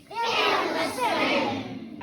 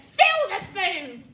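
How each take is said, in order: First: Drawn-out, stretched-out repeat; very slow echo. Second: Slow, louder grandma command; bossy grandma. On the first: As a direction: drag every word out. Slowed echo of command. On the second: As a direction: order it like a cranky granny. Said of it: "The old woman said". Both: Acted.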